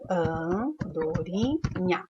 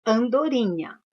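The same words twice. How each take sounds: First: Slow syllable by syllable. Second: Said in the usual way. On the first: Shown as a demonstration. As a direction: stretch out an-do-ri-nha slowly, syllable by syllable. (Andorinha dita devagar, sílaba por sílaba) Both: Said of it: "Tem dígrafo na palavra andorinha?".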